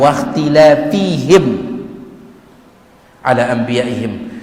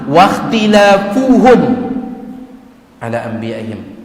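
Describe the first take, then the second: First: The vowel after the f is i. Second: The vowel after the f is u. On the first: They perished because they opposed their prophets too often. The speaker calls it wrong. "Baris bawah" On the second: They perished because they opposed their prophets even once. The speaker calls it right. "baris dhammah"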